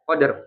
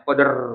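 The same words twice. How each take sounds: First: The final r is trilled briefly and lightly. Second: The final r is trilled long and heavily. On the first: The speaker calls it right. "Qadr gitu ya" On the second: The speaker calls it wrong. "nah itu kebanyakan ya"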